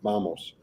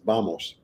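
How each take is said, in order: First: The word begins with a B sound. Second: The word begins with a B sound.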